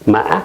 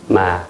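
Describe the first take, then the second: First: Said with the tone meaning horse. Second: Said with the tone meaning but. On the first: The word means horse. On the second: The word means but.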